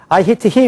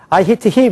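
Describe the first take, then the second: First: It is said with a Korean-style accent. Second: It is said with a Korean-style accent.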